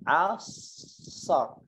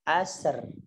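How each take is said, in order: First: The final ra sound is heavy and thick. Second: The final ra sound is light and thin. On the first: The speaker calls it right. "dibaca dengan tebal" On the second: The speaker calls it wrong.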